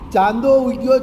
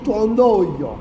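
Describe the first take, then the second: First: The first vowel is a plain open 'a'. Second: The first vowel is a nasal open 'o'. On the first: This is the standard form. "નહીં" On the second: This is the North Gujarat dialect form. "વિવૃત અ અનુસ્વાર સાથે બોલાય છે"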